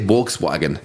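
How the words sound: The word is said with an American pronunciation. "I mispronounce my own language to fit in with Americans"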